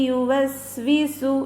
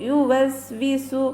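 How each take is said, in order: The two takes are said the same way.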